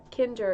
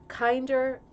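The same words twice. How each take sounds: First: Kinder said with a short "i"; German word corrected. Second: Kinder said with a long "eye" vowel; English misreading. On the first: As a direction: say Kinder as KIN-der, slowly. Corrects own reading of German word. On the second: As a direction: say Kinder as KINE-der. First try at unfamiliar German word. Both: Real, not acted.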